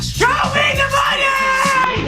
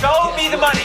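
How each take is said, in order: First: It is yelled loudly. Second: It is said quietly, without yelling.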